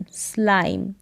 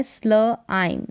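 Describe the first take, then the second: First: Said in the usual way. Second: Slow स्ल आइम in two parts; sounded out. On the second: Shown as a demonstration. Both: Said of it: "S L को स्ल".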